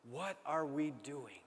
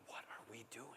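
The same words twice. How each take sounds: First: Slow, deliberate, each word weighted; slow emphatic question. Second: Much softer, inward question; quiet musing. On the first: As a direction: press the question on the congregation. Repeated as challenge. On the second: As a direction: murmur it to yourself. Self-questioning thought. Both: Retold or imitated.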